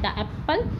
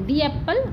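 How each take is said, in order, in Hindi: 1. शब्द 'the' को छोटे 'uh' के साथ बोला जाता है। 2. शब्द 'the' को लंबे 'ee' के साथ बोला जाता है। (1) "सॉरी" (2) "जब भी कभी वोवल आएगा तो हमें दा को दी प्रोनाउंस करना है"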